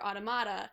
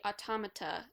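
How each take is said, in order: First: It is said like the word automatic. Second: It is said like the word automaton. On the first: "which is getting the pronunciation from automatic" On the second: "you're getting the pronunciation from automaton"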